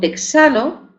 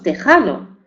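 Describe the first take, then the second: First: The middle consonant is a ks sound. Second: The middle consonant is a throaty j sound.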